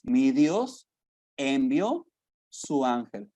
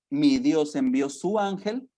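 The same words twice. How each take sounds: First: "Mi Dios", pause, "envió", pause, "su ángel", each phrase set apart; preacher hammering home each word of the verse; word-by-word emphasis. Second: Said in the usual way. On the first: Shown as a demonstration. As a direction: break "Mi Dios envió su ángel" into three pressed beats with pauses. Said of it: "repeats verse word by word". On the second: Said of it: "Dice el versículo veintidós".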